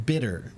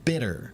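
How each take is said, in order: First: The middle sound is a soft, quick D. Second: The same.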